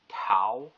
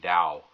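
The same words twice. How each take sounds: First: It begins with a clear T sound. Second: It begins between a T and D sound. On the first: The speaker calls it wrong. "call it Tao with a T" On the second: The speaker calls it right. "Not quite a D, not quite a T"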